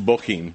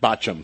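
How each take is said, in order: First: The name does not begin like 'botch'. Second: The name begins like the word 'botch'. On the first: The speaker calls it right. "that's Bochim" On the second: The speaker calls it wrong. "not Bochim. Some people say Bochim like they really botched this up"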